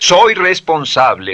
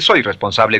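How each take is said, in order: First: It is said warmly, full of feeling. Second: It is said flatly, without feeling. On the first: The speaker calls it right. "dice ... emociónelo" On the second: The speaker calls it wrong. "no dice"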